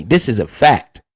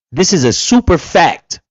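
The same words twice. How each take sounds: First: Said in the usual way. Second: Super punched, falling at the end; stress on super. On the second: Shown as a demonstration. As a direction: lean hard on the word super.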